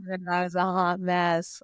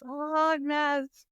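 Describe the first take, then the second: First: Said in the usual way. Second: "A hot mess" drawn out slowly and high, each word stretched; emphatic repeat. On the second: Shown as a demonstration. Repeating own phrase for emphasis.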